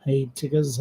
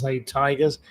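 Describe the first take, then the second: First: "Tiggers" with a short i, TIG-uz; "Tiggers" said with a short first vowel; alternative pronunciation. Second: "Tigers" with a long i, TIE-guz; "Tigers" said with a long first vowel; alternative pronunciation. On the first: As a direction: say "Tiggers" to rhyme with diggers. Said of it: "or whatever you call". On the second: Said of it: "or Hey Tigers". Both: Shown as a demonstration.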